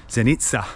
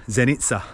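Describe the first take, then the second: Both takes have the same delivery.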